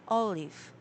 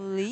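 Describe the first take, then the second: First: The stress is on the first syllable. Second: The stress is on the second syllable. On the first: The speaker calls it right. "the first syllable is stressed" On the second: The speaker calls it wrong. "So you mean I put the stress on the second syllable before?"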